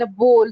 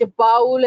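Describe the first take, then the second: First: "bowl" with a long "o", as in "goal". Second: "bowl" said like "paul" with an "ow" vowel, as in "owl"; mispronounced bowl. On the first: Trainer repeating the contrast for learners, "bowl" with a long o. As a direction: say "bowl" as "bohl". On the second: Trainer repeating the confusable example, "bowl" mispronounced as "baul". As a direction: say "bowl" as "bowel". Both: Shown as a demonstration. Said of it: "that person won't be able to understand".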